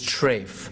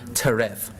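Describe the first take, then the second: First: It is said in the Yiddish pronunciation. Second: It is said in the Hebrew pronunciation. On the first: "That's the Yiddish pronunciation" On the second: "the Hebrew word teref"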